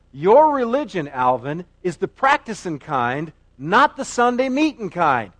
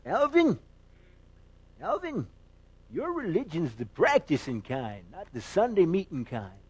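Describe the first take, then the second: First: Said in the usual way. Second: Put-on old country preacher calling out, then admonishing; Pastor Pyle. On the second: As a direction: impersonate a quavering movie pastor. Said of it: "he says".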